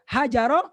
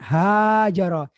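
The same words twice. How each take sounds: First: The first vowel is kept short. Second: The first vowel is drawn out long. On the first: The speaker calls it wrong. "wah itu salah itu" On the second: The speaker calls it right. "pakai alif"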